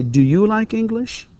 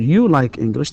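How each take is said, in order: First: "Do you like English?" slowly, with the voice going up high at the end; rising question tune. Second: Said in the usual way. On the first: Shown as a demonstration. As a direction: lift "English" up like a real question. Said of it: "the rising intonation". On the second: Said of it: "لو مثلًا نقول".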